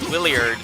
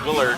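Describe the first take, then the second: First: An extra 'ee' sound follows the L. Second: No extra sound follows the L. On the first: The speaker calls it wrong. "I actually called Willard Williard because I thought there was an I after the L" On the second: The speaker calls it right. "but no, it's just Willard"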